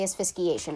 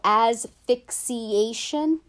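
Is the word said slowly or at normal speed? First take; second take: normal speed; slowly. First: The word is said at normal speed. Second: The word is said slowly and carefully. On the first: The speaker calls it wrong. "just trying to say the word, I say asphyxiation, and I can't" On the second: The speaker calls it right. "slow it down and go asphyxiation, I can pronounce it"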